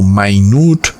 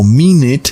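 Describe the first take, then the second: First: "minute" said "my-NOOT", with stress on the second syllable, meaning tiny; English minute as small. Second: "minute" said "MIN-it", with stress on the first syllable; English minute as time. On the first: Preacher showing the English word for small: "mai-NUT" with end stress. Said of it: "se puede pronunciar como". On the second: Preacher showing the English word for a minute: "MIN-it". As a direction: say "minute" as "MI-net", with a short second syllable. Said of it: "o también como". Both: Shown as a demonstration.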